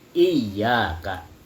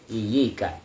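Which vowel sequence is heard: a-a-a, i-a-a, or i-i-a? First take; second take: i-a-a; i-i-a. First: Doubled y, first vowel i, then a. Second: Single y, first vowel i, then i. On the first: This is the reading of the majority of scholars. "dengan tasydid iyyaka. Di atas huruf ya-nya ada tasydid" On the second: This is a minority variant reading. "tanpa tasydid, sudah gitu huruf ya-nya bukan pakai fathah tapi pakai kasrah"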